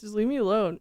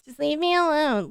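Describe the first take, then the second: First: Said in the usual way. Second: "Just leave me alone" said higher, pleading; emphatic plea. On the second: Shown as a demonstration. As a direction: repeat "Just leave me alone" with more force and pitch.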